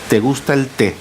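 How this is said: The first 'te' is unstressed. The speaker calls it right. "el pronombre no es átono y la infusión te sí es tónica"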